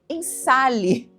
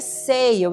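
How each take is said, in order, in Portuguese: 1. A palavra é pronunciada com sons de estilo português. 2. A palavra é pronunciada com sons ingleses. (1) "Até era difícil de falar" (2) "diga de forma correta"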